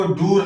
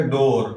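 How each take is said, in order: First: ڈور with a long oo, "door" as "doo-r"; mispronounced double O. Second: ڈور with an o, as "dore"; long O vowel. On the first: Teacher warns against reading the spelling literally, ڈور with oo. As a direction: say ڈور wrongly, rhyming with "poor". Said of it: "اس کو ڈور نہیں پڑھیں گے". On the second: Teacher gives the correct reading despite double O, ڈور as "dore". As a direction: say ڈور rhyming with "more". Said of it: "لیکن تلفظ کریں گے ڈور". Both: Shown as a demonstration.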